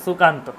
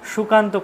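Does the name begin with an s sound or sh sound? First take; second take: s; sh. First: It begins with a dental s sound. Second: It begins with a palatal sh sound. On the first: The speaker calls it right. "সেখানে কিন্তু আপনার উচ্চারণটা সঠিক হতো সুকান্ত" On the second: The speaker calls it wrong. "সুকান্ত করলে কিন্তু হবে না, তখন হয়ে যাবে সেটা তালব্য"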